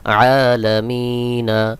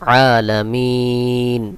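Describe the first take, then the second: First: The word ends with a short a vowel. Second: The word ends on the n sound. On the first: "নুন জবর না" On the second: "এটাকেও সাকিন করে দিতে হবে"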